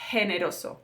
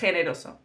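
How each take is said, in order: First: It starts with a soft h sound. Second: It starts with a harsh throat sound. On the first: "in southern Spain it would be generoso, like an H" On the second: "Here in northern Spain"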